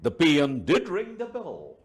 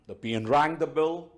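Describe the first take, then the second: First: High-pitched line with a firm, weighted "did"; stress on "did". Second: Said in the usual way. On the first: Shown as a demonstration. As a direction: lean on "did" to insist it happened. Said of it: "emphasize the whole thing". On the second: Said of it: "is the normal statement".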